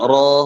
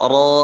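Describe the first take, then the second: The two takes are said the same way.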